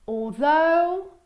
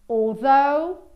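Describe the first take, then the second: Both takes have the same delivery.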